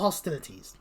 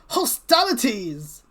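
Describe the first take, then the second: First: The word is said with the plain, standard pronunciation. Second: The word is said with a dramatic, unusual pronunciation. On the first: The speaker calls it right. "That's the way you pronounce it" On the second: The speaker calls it wrong. "hostilities sounds a bit more dramatic to be saying"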